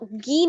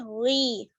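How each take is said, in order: First: It begins with a hard stopped g sound. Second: It begins with a throaty fricative gh sound. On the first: The speaker calls it wrong. "गाफ की साउंड नहीं आनी चाहिए" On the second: The speaker calls it right. "बल्कि गी, गैन गैन या जेर गी"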